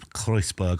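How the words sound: The name is said with a German accent.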